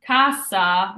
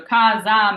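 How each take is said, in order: First: Casa with a hissed s for register; casa, sharp s, meaning register; true S sound. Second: Casa with a buzzing z for house; casa, s as z, meaning house; Z sound. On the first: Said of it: "casa means register". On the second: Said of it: "casa means house". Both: Shown as a demonstration.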